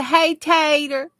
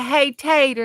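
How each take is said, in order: First: Hey, Tater stretched slowly and lifted higher; drawn-out cheer. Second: Said in the usual way. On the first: Shown as a demonstration. Host leading chat in a slow, higher cheer of Hey, Tater. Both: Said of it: "spelled like we say it".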